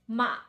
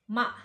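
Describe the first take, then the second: Both takes have the same delivery.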